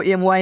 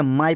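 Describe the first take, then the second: First: एम वाई spelled out as letters; wrong reading of MY. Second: माई as one joined word, "maai"; correct reading of MY. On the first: Teacher warning learners off spelling it out, एम वाई as "em-why". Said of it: "नहीं पढ़ना है". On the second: Teacher giving learners the right reading, माई as "maai". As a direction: say माई rhyming with "eye". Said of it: "इसे आपको क्या पढ़ना है". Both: Shown as a demonstration.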